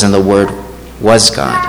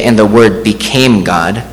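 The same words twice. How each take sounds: First: "was" set apart after a short pause; pause, then land deliberately on "was"; stress on WAS. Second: Slow line leaning on "became"; stress on BECAME. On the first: Preacher quoting John on the grammar, stress on "was". Quotes the true wording of the verse. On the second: Preacher showing what John doesn't say, stress on "became". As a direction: draw out "became" as the wrong word choice. Contrasts wording John did not use. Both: Shown as a demonstration.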